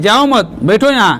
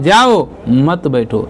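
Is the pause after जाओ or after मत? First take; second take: after मत; after जाओ. First: There is a pause after मत. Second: There is a pause after जाओ.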